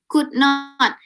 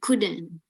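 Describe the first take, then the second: First: It is said as two separate words. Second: It is said as one contracted word.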